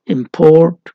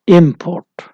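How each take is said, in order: First: import as a verb, second syllable "port" stressed; final-syllable stress. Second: import as a noun, "इम" stressed; first-syllable stress. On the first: Teacher showing verb stress to students, import stressed on final syllable "port". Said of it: "the verb has stress on the final syllable". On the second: Teacher showing noun stress to students, import stressed on first syllable "इम". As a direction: hit the first syllable of import, lighter on the second. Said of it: "noun is stressed on the first syllable". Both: Shown as a demonstration.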